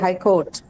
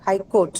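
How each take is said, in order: First: The vowel in court is a long O. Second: The vowel in court is not a long O. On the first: The speaker calls it right. "it has a long O sound" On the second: The speaker calls it wrong. "You don't say high court"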